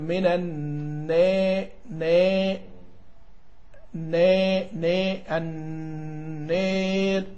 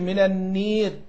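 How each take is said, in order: First: The long vowel sits between 'a' and 'ee'. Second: The long vowel becomes a full 'ee' sound. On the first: The speaker calls it right. "نقول" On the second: The speaker calls it wrong. "ما نقولش"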